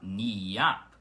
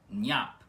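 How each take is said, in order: First: The i is drawn out as a full vowel. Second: The i is quick, blending into the n. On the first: The speaker calls it wrong. "com esse i mais demorado" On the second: The speaker calls it right. "com o i rápido"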